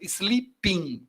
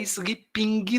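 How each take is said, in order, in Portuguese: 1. A palavra termina sem som de G. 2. A palavra termina com som de G forte. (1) "o G some, não tá ali" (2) "Não é sleeping, não"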